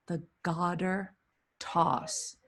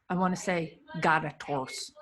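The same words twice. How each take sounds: First: Garter said dropping the R, gahdah; New England accent. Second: Garter toss with the R pronounced, gar-ter; intended pronunciation. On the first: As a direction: say The garter with Boston-style no R. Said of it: "The New Englander in me just came out". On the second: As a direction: say garter with a clear R sound. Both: Shown as a demonstration.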